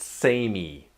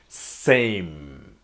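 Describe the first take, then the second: First: An extra vowel sound follows the final M. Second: The word ends cleanly on the M sound. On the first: The speaker calls it wrong. "It's not samey" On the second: The speaker calls it right. "The E is pretty, like, sort of silent, like same"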